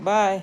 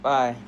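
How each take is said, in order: First: High, loud little "bye"; girl's goodbye. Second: Loud "bye" at ordinary pitch; boy's goodbye. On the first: Girl parting from her new friend, high goodbye. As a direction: call a bright, raised farewell. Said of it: "she's like, "Bye". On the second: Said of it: "he's like, "Bye". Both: Acted.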